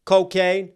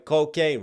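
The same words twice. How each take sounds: First: Cocaine with the O held long, higher and louder. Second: Said in the usual way. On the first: Shown as a demonstration. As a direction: stretch the hard O in Cocaine. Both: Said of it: "the hard O in the cocaine that he can hold out".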